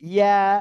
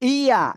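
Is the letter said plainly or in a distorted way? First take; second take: plainly; distorted. First: The letter is said plainly and simply. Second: The letter is said in a distorted way. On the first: The speaker calls it right. "এভাবে উচ্চারণ করবেন। সিম্পল হবে উচ্চারণ।" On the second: The speaker calls it wrong. "এরকম বললে ভুল হবে।"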